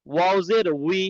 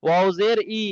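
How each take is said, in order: First: "উই" as wee, starting on a rounded w; w-glide wi. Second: "ই" as a plain ee with no w glide; wrong bare i. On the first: Teacher correcting a common mix-up, "উই" with a clear w before the ee. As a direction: round the lips into a w for "উই". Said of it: "W". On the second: Teacher warning students of a mix-up, "ই" said without any w. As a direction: drop the w and end on bare "ই". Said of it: "ওয়াও জের কিন্তু ই না". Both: Shown as a demonstration.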